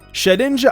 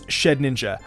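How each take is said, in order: First: It is said without an extra n sound. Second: It is said with an extra n sound. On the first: The speaker calls it right. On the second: The speaker calls it wrong.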